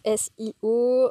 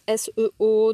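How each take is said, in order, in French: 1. La lettre du milieu se prononce comme 'ee'. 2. La lettre du milieu se prononce comme le 'e' français. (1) "d'autres S I O" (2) "il y en a qui disent S E O"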